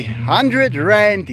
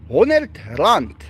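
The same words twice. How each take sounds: First: Said in the usual way. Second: "honderd" in Afrikaans, rolled r, clipped d; Afrikaans word. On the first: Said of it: "if you say hundred rand". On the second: Shown as a demonstration. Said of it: "it's honderd rand".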